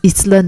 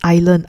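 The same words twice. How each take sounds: First: The s sound is pronounced in the word. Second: The s sound is silent in the word. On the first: The speaker calls it wrong. "it's not pronounced as island" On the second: The speaker calls it right. "it's pronounced as island"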